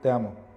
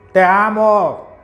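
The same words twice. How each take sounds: First: It is said softly, in a small voice. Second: It is said at normal volume.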